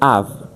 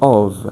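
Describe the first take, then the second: First: The vowel is open and unrounded, like 'av'. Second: The vowel is closed and rounded. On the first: "in American accent, they will say of" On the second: "So everything is closed, and they're gonna say of"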